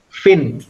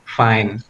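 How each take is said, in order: First: It is said with a short vowel, like 'fin'. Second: It is said with a long 'eye' vowel, like 'fine'. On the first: The speaker calls it wrong. "Itu ada yang bacanya fin ya. Itu berarti pronunciation-nya salah" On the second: The speaker calls it right. "you have to say fine"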